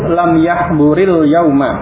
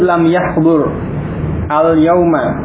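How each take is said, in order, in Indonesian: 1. Yahbur menyambung ke yauma melalui bunyi i penyambung. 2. Yahbur berakhir dengan bunyi henti sebelum al-yauma yang terpisah. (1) "Kalau membacanya bersambung, maka tadi sukunnya dikasrah" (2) "kalau terpisah, lam yahbur, ini sukun ya"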